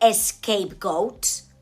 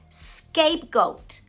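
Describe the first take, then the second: First: The word begins with an added vowel sound. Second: The word begins directly with an s sound. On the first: The speaker calls it wrong. "not scapegoat" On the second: The speaker calls it right. "The idiom he's trying to use is scapegoat"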